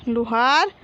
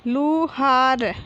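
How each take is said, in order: First: Said in the usual way. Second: Slow, stretched लु, हा, र, falling at the end; drawn-out teaching reading of Luhar; syllable by syllable. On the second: Shown as a demonstration. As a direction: sound out Luhar piece by piece. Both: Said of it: "तो हम इस प्रकार पढ़ेंगे".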